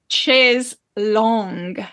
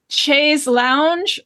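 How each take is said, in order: First: The last word rhymes with 'tongue'. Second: The last word sounds like 'lounge'. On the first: The speaker calls it right. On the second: The speaker calls it wrong.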